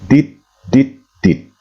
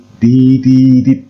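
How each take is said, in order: First: Each syllable ends in t, said separately. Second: Only the last syllable ends in t, smoothly joined. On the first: The speaker calls it wrong. "salah dalam hal melafazkan" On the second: The speaker calls it right. "supaya kesannya tidak kaku"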